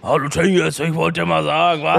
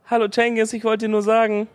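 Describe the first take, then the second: First: It is said in a deep, manly voice. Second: It is said in a medium-pitched voice.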